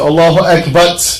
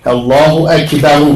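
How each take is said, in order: First: The last word ends on the r sound. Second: The last word ends with an added u vowel. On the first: The speaker calls it wrong. "have to get the pronunciation right" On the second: The speaker calls it right. "this is proper to say"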